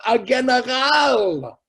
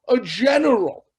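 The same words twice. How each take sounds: First: GENERAL with a hard g, last syllable stretched and stressed; Yiddish pronunciation. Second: Said in the usual way. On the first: Retold or imitated. Preacher naming whom God needed, GENERAL in loud Yiddish with hard g. Yiddish word, then its English.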